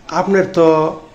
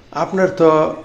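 No difference in how they are said.

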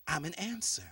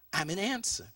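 No difference in how they are said.

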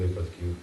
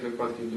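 First: Випадків with the stress on the first syllable И; corrected stress. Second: Випадків with the stress on the middle А; stress on second syllable. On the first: Guest corrects his own word stress, first syllable stressed. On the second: Guest slips while answering about funny incidents, stress on second syllable. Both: Real, not acted. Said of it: "правильно наголосив".

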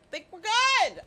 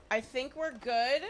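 First: Higher, louder "Think we're good"; a jumpy, raised "good"; nervous burst. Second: Said in the usual way. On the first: Real, not acted. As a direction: blurt it out too loud.

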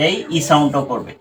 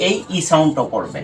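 No difference in how they are said.

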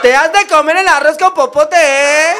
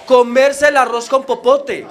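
First: "comer el arroz con popote" dicho agudo y fuerte, a lo chilango; chilango burlón. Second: "comerse el arroz con popote" dicho lento, con su voz normal; la frase citada, lenta y clara; frase repetida despacio. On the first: Retold or imitated. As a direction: remata la burla con acento chilango. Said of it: "Me dijo". (el chilango se burla, agudo y fuerte) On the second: Shown as a demonstration. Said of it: "esa frase". (el colombiano repite la frase despacio)

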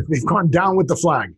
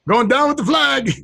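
First: Said in the usual way. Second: High-pitched cry in a put-on voice; mock exclamation. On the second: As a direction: call it out high, playing it up. Acting out the saying as exclamation.

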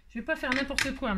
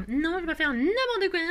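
First: Said in the usual way. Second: High, distorted silly voice; playful mock protest. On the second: Crafter joking with viewers about her bee, silly mock protest. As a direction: clown the words, pitched well up. Clowns the line, then laughs.

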